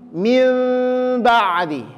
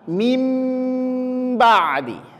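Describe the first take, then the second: First: The nasal is made with the lips slightly apart. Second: The nasal is made with lips pressed firmly together. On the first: "Mil, renggang" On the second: "Kalau yang pertama mim ba'di"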